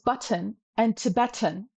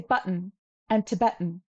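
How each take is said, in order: First: The middle T is clearly pronounced. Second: The middle T becomes a glottal stop. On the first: This is the older way of saying it. "forty years ago, we would pronounce these as button and Tibetan" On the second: This is the current way of saying it. "now we say button and Tibetan"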